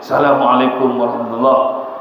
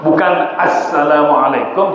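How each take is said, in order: First: Assalamualaikum swallowed as salamualekum, the alif-lam dropped; clipped wrong salam. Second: Assalamualaikum with the opening a and the double s said clearly; correct salam in full. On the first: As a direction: rush assalamualaikum warahmatullah as salamualekum ramatula. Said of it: "Bukan assalamualaikum, tapi". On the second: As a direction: lay out assalamualaikum carefully, letter by letter. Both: Shown as a demonstration.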